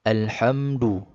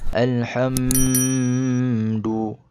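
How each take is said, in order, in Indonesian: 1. Bunyi m dibaca jelas, tanpa dengung. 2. Bunyi m ditahan dengan dengung. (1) "bacaan secara jelas sahaja, tanpa dengung" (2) "Seperti macam ni. ... itu salah"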